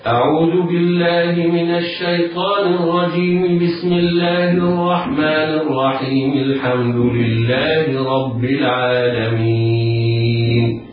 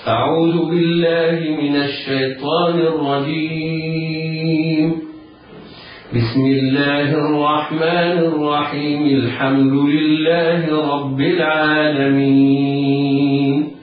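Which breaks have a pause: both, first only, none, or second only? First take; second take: none; first only. First: All three phrases run together without any pause. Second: There is a pause after the first phrase only. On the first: "وصل الاستعاذة بالبسملة ووصل البسملة بأول السورة" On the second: "الوقف على الاستعاذة ووصل البسملة بأول السورة"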